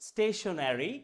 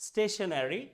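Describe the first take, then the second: Both takes have the same delivery.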